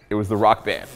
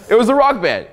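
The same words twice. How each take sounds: First: Said in the usual way. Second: "It was the rock band." said much higher and louder, punching "rock"; emphatic reveal. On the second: Real, not acted. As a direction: hit "rock" hard, like the punchline.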